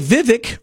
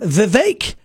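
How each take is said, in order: First: The second syllable does not rhyme with cake. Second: The second syllable rhymes with cake. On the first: The speaker calls it wrong. "a lot of the news, they say Vivek Ramaswamy" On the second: The speaker calls it right. "and then today I heard Vivek"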